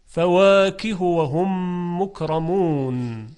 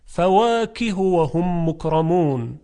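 First: فواکه و هم مکرمون slow with short hu; correct recitation. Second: فواکه و هم مکرمون with the ha wrongly lengthened; wrong recitation. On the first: (تلاوت درست و آهسته بدون اشباع) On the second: (تلاوت نادرست با اشباع هاء) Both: Shown as a demonstration. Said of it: "نمیتونیم بخونیم".

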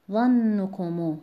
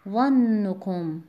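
First: ظنکمو slowly, long held nn and light final "mu"; ظنکمو as ZANN-nukumu; linked form, same stress. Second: ظنکم very slow, long held nn, ending on a still m; ظنکم as ZANN-nukum; pausal form. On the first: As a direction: stretch "ZANN" in ظنکمو, then light "kumu". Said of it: "در حرکت عارضی و وصل". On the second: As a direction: stretch "ZANN" in ظنکم, then light "kum". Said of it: "با سکون بخونید". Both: Shown as a demonstration.

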